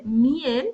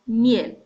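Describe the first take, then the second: First: Miel as MI-el; two syllables, stress on the I. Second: Miel as one syllable, mjel, louder; correct stress. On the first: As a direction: show the wrong split of miel. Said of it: "cómo se produce la diferencia entre miel". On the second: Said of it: "la diferencia entre miel y miel". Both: Shown as a demonstration.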